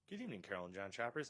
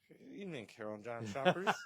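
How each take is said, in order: First: It is said in a normal voice. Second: It is said in a slurred, drunk-sounding voice.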